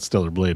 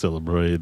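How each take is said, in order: First: The second word is said with an L sound. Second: The second word is said with an R sound. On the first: "it's not Stellar Blade" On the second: "the L thing"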